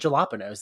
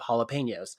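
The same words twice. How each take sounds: First: The word is said in an altered, nonstandard pronunciation. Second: The word is said in its standard pronunciation. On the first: It is a habitual playful version. The speaker calls it wrong. "I think naturally to say jalapenos" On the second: It is the usual accepted version. The speaker calls it right. "instead of"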